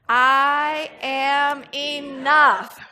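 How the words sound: The word enough carries the stress. "and then we're going to put the emphasis on enough"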